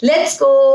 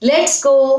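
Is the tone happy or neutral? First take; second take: happy; happy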